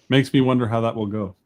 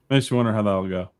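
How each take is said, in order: First: The phrase is spoken slowly and more clearly. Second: The phrase is spoken quickly and somewhat slurred. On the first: The speaker calls it right. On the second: The speaker calls it wrong.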